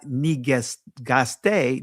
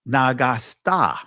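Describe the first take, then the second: First: The vowels sound like 'eh'. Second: The vowels sound like 'ah'. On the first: This is the modern pronunciation. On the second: This is the ancient pronunciation.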